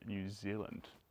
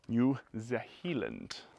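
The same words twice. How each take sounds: First: It is said in a plain, ordinary way. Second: It is said in a funky, put-on way. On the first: The speaker calls it right. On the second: The speaker calls it wrong.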